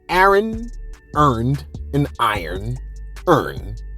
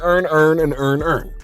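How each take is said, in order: First: The vowels keep their distinct non-Baltimore sounds. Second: The vowels merge into one Baltimore sound. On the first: "I couldn't say it like that" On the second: "if I was from Baltimore ... I'd be saying"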